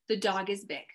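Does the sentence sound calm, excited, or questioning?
calm. It is said as a calm, plain statement. It simply states a fact. "I put a period at the end. That's how the reader would read that"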